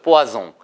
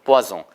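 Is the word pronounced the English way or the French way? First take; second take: French; French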